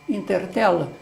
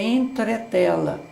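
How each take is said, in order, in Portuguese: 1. Começa com I e o R vem depois da vogal. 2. Começa com E e o R vem antes da vogal. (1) "o substituiu na pronúncia por I" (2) "a palavra correta é entretela"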